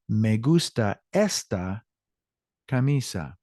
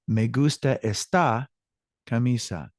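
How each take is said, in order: First: Esta stressed on ES, then a pause; correct stress demo. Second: Esta wrongly stressed on its final syllable; flipped stress. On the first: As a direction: lift the first syllable of esta, pause before camisa. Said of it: "hear our voice shift up and down". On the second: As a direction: lean on the last syllable of esta, then pause. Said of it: "flip the words in each sentence". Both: Shown as a demonstration.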